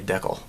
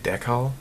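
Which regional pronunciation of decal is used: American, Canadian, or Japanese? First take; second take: Canadian; Japanese. First: The word has the Canadian pronunciation. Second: The word has the pronunciation used in Japan. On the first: "in Canada, they say decal" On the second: "Here in Japan, they say decal"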